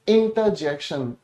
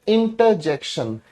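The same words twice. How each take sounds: No difference in how they are said.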